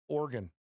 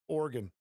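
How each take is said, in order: The two takes are said the same way.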